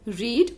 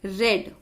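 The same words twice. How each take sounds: First: It is said with the present-tense pronunciation. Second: It is said with the past-tense pronunciation. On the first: The action happens now or habitually. "In present tense, we say read" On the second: The action already happened. "in the past tense, the spelling is same, but we read it as read"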